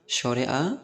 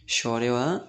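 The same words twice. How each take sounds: The two takes are said the same way.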